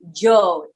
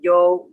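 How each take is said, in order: First: The word begins with a J sound. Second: The word begins with a Y sound. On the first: "it's like a J" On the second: "yo with a Y"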